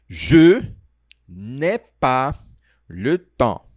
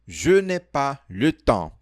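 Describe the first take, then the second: First: The sentence is spoken at a slow pace. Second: The sentence is spoken at a fast pace. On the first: "a gente vai falar bem devagar" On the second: "tá rápido demais"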